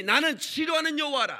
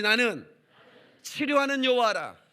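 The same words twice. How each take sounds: First: High, loud declaration of God's word; booming proclamation. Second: Loud call-and-response recital; congregation repeats. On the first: Acted. Preacher booming God's words to the congregation. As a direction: proclaim it like God speaking. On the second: Shown as a demonstration. Preacher leading the congregation in unison recital. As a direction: lead the crowd in reciting the verse. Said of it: "다 같이".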